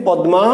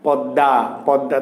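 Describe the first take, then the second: First: "পদ্মা" as pad-ma; written form. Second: "পদ্মা" low and slow, as pad-da; no m in "পদ্মা", a doubled d; spoken form. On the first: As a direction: sound both consonants d and m in "পদ্মা". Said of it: "আমি শব্দটা লিখেছি". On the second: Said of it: "তুমি উচ্চারণ করছো". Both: Shown as a demonstration.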